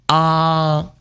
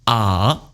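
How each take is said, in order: First: The pitch stays high and level. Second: The pitch dips low and then turns up. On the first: "First tone high" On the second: "Third tone turning"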